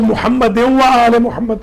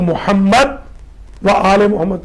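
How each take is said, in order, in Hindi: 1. पहला मुहम्मद सीधे अगले शब्द से जुड़ जाता है। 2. पहले मुहम्मद के बाद आवाज़ थोड़ी देर रुकती है। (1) "जो वक्फ के बगैर पढ़ते हैं" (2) "जो लोग वक्फ के साथ पढ़ते हैं"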